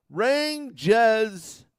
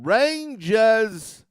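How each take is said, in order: First: "Rangers" loud and higher, New York style; mock the New York way of saying "Rangers"; New York accent. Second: Slow, stretched New York "Rangers"; New York accent. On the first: Mocking how Rangers fans say it in a New York accent. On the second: Retold or imitated. Mocking rival fans in a New York accent. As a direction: drawl "Rangers" like a New Yorker. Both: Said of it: "That's how they pronounce it".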